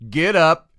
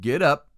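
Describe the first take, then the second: First: It is said in a louder, raised voice. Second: It is said in a normal, calm voice.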